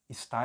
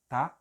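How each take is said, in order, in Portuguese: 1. A palavra é dita inteira, com as duas sílabas. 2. A palavra é encurtada para uma sílaba. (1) "é forte" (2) "é fraco"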